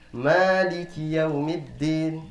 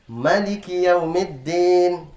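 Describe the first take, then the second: First: The first vowel of the first word is long. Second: The first vowel of the first word is short. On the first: It is the way it is actually recited. "Kita membaca panjang" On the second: It follows the written form literally. "Apakah harusnya bacanya ini adalah pendek?"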